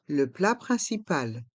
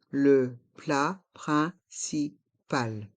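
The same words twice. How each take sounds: First: Said in the usual way. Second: "Le plat principal" in slow, separate syllables; slow model pronunciation. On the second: Shown as a demonstration. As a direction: pause after every syllable of "Le plat principal". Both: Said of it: "Prononçons".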